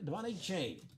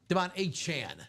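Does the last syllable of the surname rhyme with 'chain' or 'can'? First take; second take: chain; can. First: The last syllable rhymes with 'chain'. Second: The last syllable rhymes with 'can'. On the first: The speaker calls it wrong. "I am getting his pronunciation of his name correct, right?" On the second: The speaker calls it right. "not Chain"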